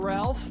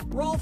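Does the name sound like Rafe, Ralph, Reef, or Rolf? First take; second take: Ralph; Rolf. First: It has the vowel of 'half' with an L. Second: It has the vowel of 'golf' with an L.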